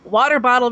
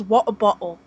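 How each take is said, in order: First: Said in the usual way. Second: "water bottle" with both Ts swallowed into glottal stops, wah-ah boh-uhl; Cockney glottal stops. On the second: Shown as a demonstration. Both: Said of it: "they cannot pronounce the letter T".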